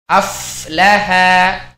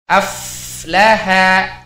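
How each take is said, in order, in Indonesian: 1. Bunyi f mengalir dengan nafas yang terdengar. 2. Bunyi f mengalir dengan nafas yang terdengar.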